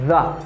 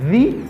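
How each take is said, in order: First: The word ends with a short 'uh' vowel. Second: The word ends with a long 'ee' vowel. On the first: It comes before a consonant sound. "lè ke placé devant yon consonne, li gen yon son the" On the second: It comes before a vowel sound. "article moyen placé devant yon voyelle, li gen yon son the"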